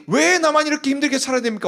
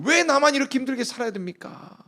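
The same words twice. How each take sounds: First: Bitter complaint pitched higher; bitter prayer. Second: Arguing prayer. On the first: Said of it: "원한 맺힌 기도를 하다가". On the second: Hannah arguing with God in prayer, pitched higher. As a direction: challenge God, why up high. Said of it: "따지면서 물었을 거예요". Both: Acted.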